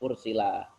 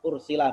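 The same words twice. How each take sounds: First: The final vowel is lengthened. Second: The final vowel is short. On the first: It is lengthened to fit the rhyme of the poem. "karena menyesuaikan di akhir maka tambah alif" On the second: This is the ordinary form of the word. "Ursila biasa"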